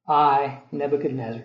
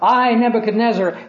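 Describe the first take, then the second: First: It is said in a humbled, subdued tone. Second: It is said in a proud, boastful tone. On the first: The speaker has been brought low. "now he says it with a different tone of voice" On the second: The speaker thinks he is mighty. "he starts out talking about how great he is"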